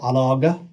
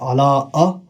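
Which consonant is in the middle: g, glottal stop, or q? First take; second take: g; glottal stop. First: The middle consonant is a hard g sound. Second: The middle consonant is a glottal stop. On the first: "We don't say alaga" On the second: "we don't say ala ala'a"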